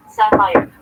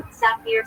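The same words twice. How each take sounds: First: Sapphire said the English way as SAF-ire; English pronunciation. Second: Sapphire said the Hebrew way as sa-PEER, ending in r; Hebrew pronunciation. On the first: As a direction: give sapphire its English sound, saf-fire. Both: Shown as a demonstration. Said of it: "in Hebrew".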